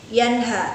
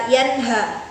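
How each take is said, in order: Both takes have the same delivery.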